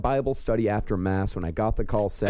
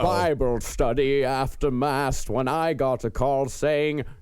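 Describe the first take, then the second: First: It is said in the speaker's normal voice. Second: It is said in a put-on character voice.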